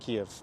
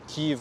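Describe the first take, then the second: First: The name is said the Russian way. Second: The name is said the Ukrainian way. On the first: It follows the Russian name. "would be Russian Kiev" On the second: It follows the official Ukrainian name. "Kiev would be Ukrainian pronunciation"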